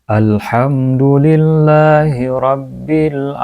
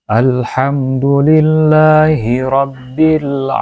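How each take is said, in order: The two takes are said the same way.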